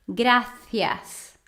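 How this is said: The c is said with the tongue between teeth. "C I também eles pronunciam com a língua entre os dentes. ... Sotaque da Espanha"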